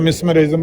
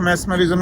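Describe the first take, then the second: First: The first syllable has an 'i' vowel: mis. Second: The first syllable has an 'e' vowel: mes. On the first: This is how it was read in Urdu. "लेकिन उर्दू में हमने पढ़ा मिसमरिज़्म" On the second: This is how it is said in English. "अंग्रेज़ी में उसकी pronunciation मैस्मरिज़्म ही होगी"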